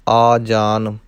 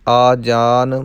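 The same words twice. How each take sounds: Both takes have the same delivery.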